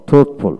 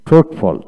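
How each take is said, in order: Both takes have the same delivery.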